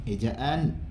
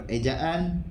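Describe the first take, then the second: The two takes are said the same way.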